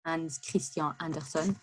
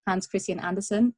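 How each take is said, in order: First: "Hans Christian Andersen" Frenchified, "Christian" ending in a nasal vowel; French pronunciation. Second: "Hans Christian Andersen" said the foreign way, "Christian" ending in a sounded n; non-French pronunciation. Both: Shown as a demonstration. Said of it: "je sais pas comment dire ça en français".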